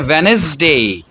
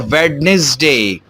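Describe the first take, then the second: First: The middle d sound is left out. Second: The middle d sound is pronounced. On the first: "अगर कुछ लोग डी को pronounce ना भी करें" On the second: "अमूमन लोग उसको पढ़ते हैं"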